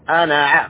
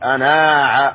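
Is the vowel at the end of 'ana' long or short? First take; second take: short; long. First: The final vowel of ana is short. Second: The final vowel of ana is long. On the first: The speaker calls it right. "هكذا أنا ع" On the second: The speaker calls it wrong. "ما نقول أنا ع، خطأ"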